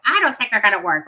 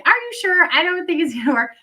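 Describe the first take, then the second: First: Said in the usual way. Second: Higher, unsure doubting quote; mock the owner's hesitant disbelief, pitched up; doubtful gym owner. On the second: Imitating the gym owner doubting the cloths, higher and unsure. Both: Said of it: "she didn't say it like that".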